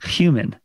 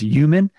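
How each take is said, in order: First: The word begins with a clear H sound. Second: The word begins without an H sound. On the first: The speaker calls it right. "Got to make that H noise in there" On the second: The speaker calls it wrong. "you don't say the H at all"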